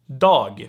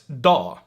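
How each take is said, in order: First: The final G sound is pronounced. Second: The final G sound is dropped.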